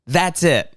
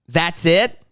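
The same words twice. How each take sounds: First: "That's it." with a flat, falling, final tune; flat falling answer. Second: "That's it?" with a rising, doubtful question tune; questioning rise. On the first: Answering the video's own ending, flat falling statement. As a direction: settle "That's it." down flatly. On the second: Reacting to the video's lame ending, rising question. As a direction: let "That's it?" climb at the end, unimpressed. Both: Shown as a demonstration.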